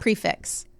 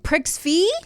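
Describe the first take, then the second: First: The second word ends with a clear x sound. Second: The second word ends in a vowel, no x. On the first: The speaker calls it right. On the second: The speaker calls it wrong.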